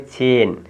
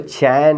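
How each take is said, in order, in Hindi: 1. स्वर अधिक बंद 'ay' ध्वनि है। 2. स्वर खुला 'eh' ध्वनि है। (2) "इसको चैन नहीं पढ़ना है"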